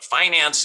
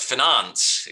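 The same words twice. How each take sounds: First: It is said the plain, lowbrow way. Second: It is said the refined, highbrow way. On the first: It sounds unrefined. The speaker calls it wrong. "finance is lowbrow" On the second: It sounds refined. The speaker calls it right. "finance is very highbrow"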